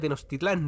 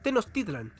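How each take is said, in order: First: The stress falls on the final syllable. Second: The stress falls on the second-to-last syllable. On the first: The speaker calls it wrong. "yo le decía Tenochtitlán, debía haber parecido un idiota" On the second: The speaker calls it right. "Ahora lo pronuncio bien"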